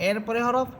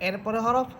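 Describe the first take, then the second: The two takes are said the same way.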